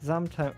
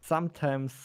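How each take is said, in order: First: The first sound is a buzzing z. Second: The first sound is a hissing s. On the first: The speaker calls it wrong. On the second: The speaker calls it right.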